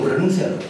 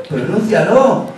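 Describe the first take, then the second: First: Said in the usual way. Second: Slow, insistent dare to pronounce it; drawn-out challenge. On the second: Shown as a demonstration. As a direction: stretch the word out slowly.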